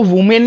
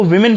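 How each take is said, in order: First: वुमेन said with an "oo" in the first syllable, "WOO-men"; mispronounced वुमेन. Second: विमेन said with a short "i" in the first syllable, "WIM-in"; correct विमेन pronunciation. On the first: Teacher shows students the wrong reading of the plural, वुमेन mispronounced as "WOO-men". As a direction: say वुमेन the mistaken way, first vowel as "wu". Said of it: "इसको वुमेन नहीं पढ़ेंगे". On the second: Teacher shows students how the plural is read, विमेन pronounced "WIM-in". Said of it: "इसको विमेन पढ़ते हैं". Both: Shown as a demonstration.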